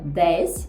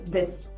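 First: The vowel is pronounced clearly and fully. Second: The vowel is reduced to a neutral schwa. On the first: "Не виговорювати чітко" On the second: "а сказати"

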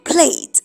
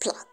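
First: The word sounds like 'plate'. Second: The word sounds like 'plat'. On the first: It names the dish you eat with. The speaker calls it wrong. "it's not plait" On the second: It means weaving hair together. The speaker calls it right. "it is plait"

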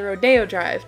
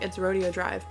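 First: Rodeo is said the Florida way. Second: Rodeo is said the Canadian way. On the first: "they pronounce it Rodeo Drive down in Florida" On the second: "Up here in Canada, I know we call it Rodeo. ... for me, I'm like, it's Rodeo Drive"

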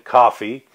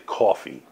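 First: The word is said in a General American accent. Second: The word is said in a New York accent. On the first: "let me say it as an American" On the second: "I'm a New Yorker, so we say coffee"

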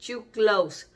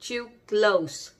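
Both takes have the same delivery.

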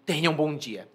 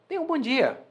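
First: It is said in an angry, cold tone. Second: It is said in a warm, friendly tone.

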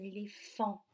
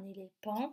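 First: No p sound is pronounced in the middle. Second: A p sound is pronounced in the middle. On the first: The speaker calls it right. "c'est un éléphant" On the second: The speaker calls it wrong. "Sinon, ça serait éléphant. Et ce n'est pas un éléphant"

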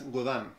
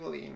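First: The second syllable has a nasal 'ah' vowel. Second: The second syllable has an 'ee' vowel. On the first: This is the original pronunciation of the brand. "Estuvimos conversando, es Godán" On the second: This is how people locally say the brand. "Pero en Chile, Godín nomás"

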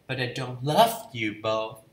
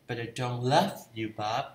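First: The stress is on love. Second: The same.

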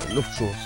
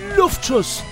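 First: It is said in the speaker's normal voice. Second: It is said in a put-on character voice.

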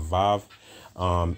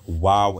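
First: The word begins with a V sound. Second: The word begins with a W sound. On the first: The speaker calls it wrong. "and not Vav" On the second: The speaker calls it right. "this character is Wav and not Vav"

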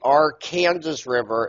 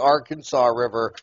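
First: Arkansas is pronounced the way Kansans say it. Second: Arkansas is pronounced the way Arkansans say it. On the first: The speaker calls it right. "Growing up in Kansas, it's the Arkansas River" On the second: The speaker calls it wrong. "It's not the Arkansas River. Like so many of you people say down there"

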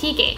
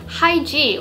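First: The name is said with Korean pronunciation. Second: The name is said with English pronunciation.

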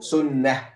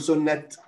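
First: The word ends with an h sound. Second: The word ends with a t sound. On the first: The speaker calls it right. "لو وقفنا على كلمة سنة نقول سنة" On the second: The speaker calls it wrong. "لا نقول سنة"

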